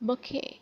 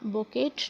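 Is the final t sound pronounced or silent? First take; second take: silent; pronounced. First: The final t sound is silent. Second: The final t sound is pronounced. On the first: The speaker calls it right. "टी is a completely silent in this" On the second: The speaker calls it wrong. "इसे बुकेट नहीं पढ़ना"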